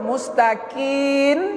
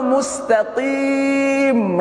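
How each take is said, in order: First: The word ends with an n sound. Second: The word ends with closed lips on m. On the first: It means those who are certain. The speaker calls it wrong. "Mustaqin dengan nun dibacanya" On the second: It means the straight one. The speaker calls it right. "rapat bibir"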